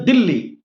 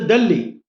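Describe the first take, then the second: First: It is said the Hindi way, as Dilli. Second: It is said the English way, as Delhi. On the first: "In Hindi it is a Dilli" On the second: "in English it is a Delhi"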